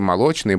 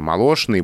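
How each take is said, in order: First: The middle consonant sounds like 'ch'. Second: The middle consonant sounds like 'sh'. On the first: This is the newer way, closer to the spelling. "стали говорить" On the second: This is the older way of saying it. "вот это знаменитые"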